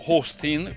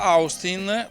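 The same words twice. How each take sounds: First: The name is said with English-style vowels. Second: The name is said with Italian-style vowels. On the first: The speaker calls it right. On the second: The speaker calls it wrong.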